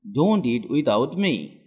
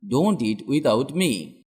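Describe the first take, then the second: No difference in how they are said.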